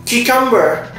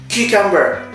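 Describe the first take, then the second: No difference in how they are said.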